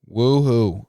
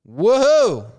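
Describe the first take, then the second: First: It is said at a normal, quieter volume. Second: It is said more loudly.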